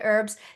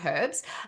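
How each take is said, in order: First: The word is said in an American accent. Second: The word is said in a non-American accent.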